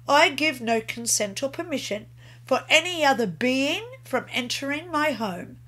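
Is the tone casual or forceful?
casual. It is said casually, without conviction.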